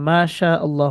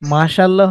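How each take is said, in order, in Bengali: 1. শব্দ দুটো আলাদা দুটো হিসেবে থাকে। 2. শব্দ দুটো মিলে একটা হয়ে যায়। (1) "মাশা আল্লাহ হবে" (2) "মাশাল্লাহ হবে না"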